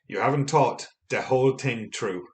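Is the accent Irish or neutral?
Irish. It is said in a strong Irish accent.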